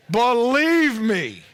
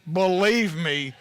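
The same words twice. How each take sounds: First: "believe me" drawn out slow, louder and higher; emphatic plea. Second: Said in the usual way. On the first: Shown as a demonstration. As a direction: lean hard on "believe me" like a vow.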